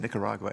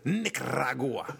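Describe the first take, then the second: First: The word is said in a plain, ordinary accent. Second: The word is said with an exaggerated foreign accent. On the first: The speaker is just naming the place normally. The speaker calls it right. "you could just say Nicaragua" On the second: The speaker wants to show off cultural sensitivity. The speaker calls it wrong. "they overdo the accent"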